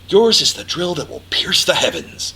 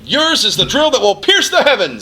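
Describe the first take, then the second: First: It is said quietly and intimately, with intensity. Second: It is said loudly, with a shouting voice.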